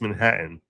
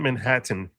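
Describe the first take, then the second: First: The middle T is said soft and light. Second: The middle T is said hard and crisp. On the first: The speaker calls it right. "You need to hit the T much softer" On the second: The speaker calls it wrong. "it's not Manhattan"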